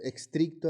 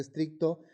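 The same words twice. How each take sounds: First: "estricto" said as "ekstricto" with an added K; mispronounced "estricto"; wrong pronunciation. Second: Said in the usual way. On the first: Shown as a demonstration. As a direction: add a K sound at the start of "estricto". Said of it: "El uso de estric". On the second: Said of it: "en vez de estricto".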